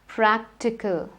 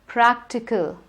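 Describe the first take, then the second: The two takes are said the same way.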